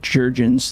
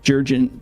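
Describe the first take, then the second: First: The final s sound is pronounced. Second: The final s sound is left silent. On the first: The speaker calls it right. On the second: The speaker calls it wrong.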